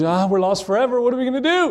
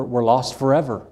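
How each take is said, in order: First: High-pitched mock freak-out, climbing higher; hammed-up wail, rising to the end; dramatic panic. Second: Said in the usual way. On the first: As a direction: imitate a melodramatic kid panicking. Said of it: "one of those dramatic people". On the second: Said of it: "he started freaking out".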